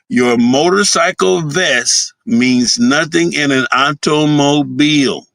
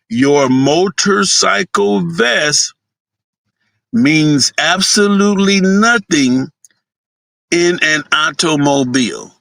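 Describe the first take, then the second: First: It is said at a normal speed. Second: It is said more slowly and deliberately.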